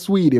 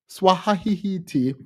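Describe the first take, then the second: First: The name is said in its normal two-syllable form. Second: The name is stretched into extra distorted syllables. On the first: The speaker calls it right. "her name is Sweetie" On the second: The speaker calls it wrong. "I like to mispronounce it"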